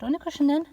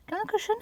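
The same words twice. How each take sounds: First: High, louder coax to the cat; coaxing pet talk. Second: Very high squeak to the cat; squeaky pet talk. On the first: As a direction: nudge the cat gently onto the cushion. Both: Real, not acted. Coaxing cat onto cushion.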